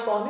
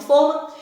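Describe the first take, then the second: First: Forma with an open o: FÓR-ma. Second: Forma with a closed o: FÔR-ma. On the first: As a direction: open the first vowel of forma. (forma com o aberto, fórma) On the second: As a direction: round the first vowel of forma. (forma com o fechado, fôrma) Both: Shown as a demonstration. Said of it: "entre as palavras forma e forma".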